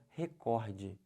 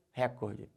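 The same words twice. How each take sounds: First: Recorde stressed on the middle syllable, COR; re-CÓR-de with open o, deliberate; correct stress. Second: Recorde stressed on the first syllable, RÉ; front-stressed récorde as the mistake; wrong stress. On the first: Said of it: "O certo é". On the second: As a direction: say recorde as RÉ-cor-de. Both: Shown as a demonstration.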